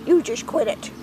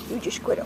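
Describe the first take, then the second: First: Said in the usual way. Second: Unvoiced, soft whispered reprimand; whispered scolding. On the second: Real, not acted. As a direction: hiss the scolding under your breath. Scolding a pet chick.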